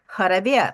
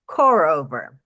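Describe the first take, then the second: First: The name is said with a Russian pronunciation. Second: The name is said with an American pronunciation. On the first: "in Russia it's pronounced Harabia" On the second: "in American, it's pronounced Korover"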